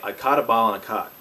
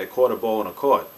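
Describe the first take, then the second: First: It is said in a merged accent. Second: It is said in a Pittsburgh accent.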